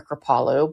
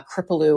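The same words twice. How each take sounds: First: Kripalu as kruh-PAH-loh with stress on PAH; second pronunciation. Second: Kripalu as KRIP-uh-loo with short i and stress up front; first pronunciation. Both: Shown as a demonstration. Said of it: "but I say".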